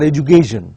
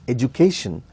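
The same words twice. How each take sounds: First: The K sound is voiced like a G. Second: The K sound is a clear, unvoiced K. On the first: The speaker calls it wrong. "the k sound is almost pronounced as g sound" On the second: The speaker calls it right. "No, it is education"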